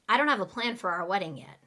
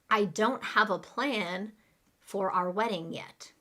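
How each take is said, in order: First: It is said very fast. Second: It is said at a normal speed.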